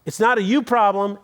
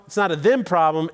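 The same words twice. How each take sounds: First: You hit and lifted in "It's not a you problem"; preacher contrasting you with them; stress on you. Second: Them hit in "It's not a them problem"; preacher contrasting them with you; stress on them. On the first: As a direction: lean on the word you. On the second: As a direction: lean on the word them. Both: Shown as a demonstration. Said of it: "It's a what problem?".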